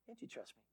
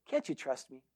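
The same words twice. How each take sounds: First: Very soft, low echo of a plea; tiny hushed coaxing murmur; barely audible appeal. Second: Softer, lower retold plea; quiet, low coaxing question; hushed appeal. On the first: Retold or imitated. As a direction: let the question almost vanish. Hunter repeats plea, far quieter. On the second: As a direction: drop the voice and appeal for trust. Retold hunter pleads with shepherd.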